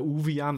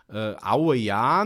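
First: The first syllable sounds like 'oo'. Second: The first syllable sounds like 'ow'. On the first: The speaker calls it wrong. "der andere sagt wieder Uwe Jahn" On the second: The speaker calls it right. "wenn wir hier im Knappenkast sagen"

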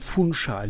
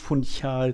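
First: The 'ch' is pronounced as an 'sh' sound. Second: The 'ch' is pronounced with a non-'sh' sound. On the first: The speaker calls it right. "spricht man mit SCH aus. Also Funchal" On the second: The speaker calls it wrong. "nicht Funchal"

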